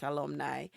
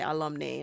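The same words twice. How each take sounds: First: "alumni" ending in a NIGH sound; last syllable of "alumni" rhymes with eye; rejected pronunciation. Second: "alumni" ending in a NAY sound; last syllable of "alumni" rhymes with day; all-girls school pronunciation. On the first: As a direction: say "alumni" as a-lum-NIGH, softly. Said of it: "not alumni". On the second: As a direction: say "alumni" as a-lum-NAY, quietly. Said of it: "so them say alumni, not alumni". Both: Shown as a demonstration.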